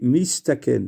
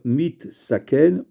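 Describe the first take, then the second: First: The s sound comes before the t. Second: The t sound comes before the s. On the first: The speaker calls it right. "on dit mistaken" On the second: The speaker calls it wrong. "au lieu de dire mit saken"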